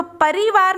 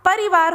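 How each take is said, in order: First: परिवार with the रि drawn out as a long "ree"; wrong vowel length. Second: परिवार with a short, quick "ri". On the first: Teacher showing pupils the misspelt word, परिवार with long ई. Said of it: "परिवार नहीं होता". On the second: Teacher correcting the misspelt word, परिवार with short इ. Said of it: "छोटी की मात्रा लगेगी". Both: Shown as a demonstration.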